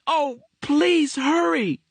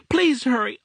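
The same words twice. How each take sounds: First: Put-on high, slow pleading boy's voice; slow, despairing child's plea; drawn-out desperate plea. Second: Put-on high, louder boy's plea; frantic child begging; urgent plea. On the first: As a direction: stretch it out, begging. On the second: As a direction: beg them to hurry, panicked. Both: A narrator's reading. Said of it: "screaming into the telephone".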